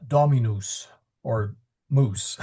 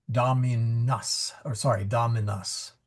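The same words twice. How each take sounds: First: "dominus" ending in noos, rhyming with "moose"; long final u. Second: "dominus" ending in nus, rhyming with muss; short final u. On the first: Teacher showing students what not to say, long oo ending. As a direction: stretch the last vowel of "dominus" to an oo, like moose. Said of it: "Try not to say". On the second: Teacher correcting the rhyme for students, short final u. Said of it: "rather it rhymes with mus". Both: Shown as a demonstration.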